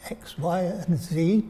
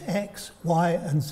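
First: It is said in an American accent. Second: It is said in a British accent.

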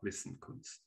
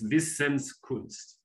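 First: No s sound joins the two parts. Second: An s sound joins the two parts. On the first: The speaker calls it wrong. "not Wissenkunst" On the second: The speaker calls it right. "So it's Wissenskunst"

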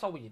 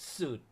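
First: It starts with sw and has an ee vowel. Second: It is one syllable with an oo vowel. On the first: The speaker calls it right. "ต้องอ่านออกเสียงว่าห้องสวีท" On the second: The speaker calls it wrong. "มีอีกหลายคนที่อ่านห้องพักแบบนี้ผิดกันอยู่เหมือนผมที่อ่านกี้นะครับอ่านว่าสูตร"

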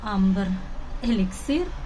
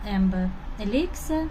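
First: The name is said with a Ukrainian-style pronunciation. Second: The name is said with an English pronunciation. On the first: It is the familiar way used since youth. "а як ми звикли говорити" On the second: It follows the now-fashionable correct pronunciation. "вимовляти правильну вимову, ось цю англійську"

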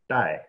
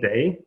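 First: The vowel sounds like the one in 'eye'. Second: The vowel sounds like the one in 'say'. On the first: "but actually in Chinese it's pronounced Dai" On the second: "Jin Day"

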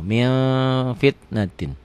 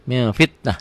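First: The phrase ends with the full '-tin' ending. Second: The phrase ends clipped with a soft 'h'. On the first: The reading continues without stopping. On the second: The reading stops at this word.

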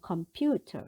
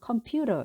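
First: The t is pronounced as a clear t. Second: The t becomes a soft r-like flap. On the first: "영국에서는 컴퓨터 이렇게 하는데" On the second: "미국 사람들은 컴퓨터 이렇게 해요"

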